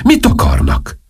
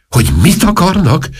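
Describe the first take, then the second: First: Said in the usual way. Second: High-pitched, incredulous comeback; exasperated echo. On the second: Acted. King snaps back the duchess's question, high and exasperated. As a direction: throw the question back, voice jumping up.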